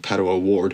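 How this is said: The name is said in an American accent.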